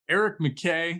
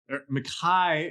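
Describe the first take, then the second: First: The surname is said the non-Scottish way. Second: The surname is said the Scottish way. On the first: The speaker calls it wrong. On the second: The speaker calls it right.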